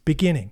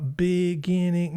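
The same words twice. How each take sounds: First: The word is said at once, fluently. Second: The word is sounded out slowly, piece by piece. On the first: The reader knows the word automatically. The speaker calls it right. "No, it's just beginning" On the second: The reader is still decoding the word. The speaker calls it wrong. "phonetically reading you know reading the sentence and going uh"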